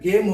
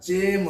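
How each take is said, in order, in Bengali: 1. এটি hard g শব্দ দিয়ে শুরু হয়। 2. এটি j শব্দ দিয়ে শুরু হয়। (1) "এখানে গেম হলো না" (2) "জেম হয়ে গেল"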